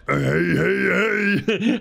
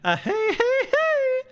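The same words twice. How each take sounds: First: It is said in a lower pitch. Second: It is said in a higher pitch.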